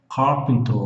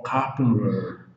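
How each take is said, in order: First: Said in the usual way. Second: "carpenter" with the T softened to an R sound. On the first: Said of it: "o Vzinho debaixo do T". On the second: Shown as a demonstration. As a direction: say "carpenter" slowly, R sound replacing the T. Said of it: "pode ser som de R". ("carpenter" com o T soando como R)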